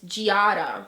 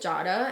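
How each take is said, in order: First: It is pronounced the English way. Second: It is pronounced the Italian way. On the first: The speaker calls it wrong. "when people read it, it's Giada, which is no, I hate it" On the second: The speaker calls it right. "my name is Jada"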